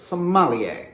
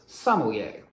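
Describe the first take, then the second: First: The middle syllable is stressed. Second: The middle syllable is not stressed. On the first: The speaker calls it wrong. "putting the emphasis on the middle syllable" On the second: The speaker calls it right. "the correct pronunciation is exactly the same"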